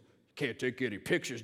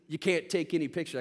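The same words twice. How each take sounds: First: It is said in an imitated gruff character voice. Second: It is said in the speaker's ordinary voice.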